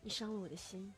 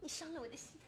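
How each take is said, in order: First: It is said in a soft, gentle tone. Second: It is said in a coy, operatic tone.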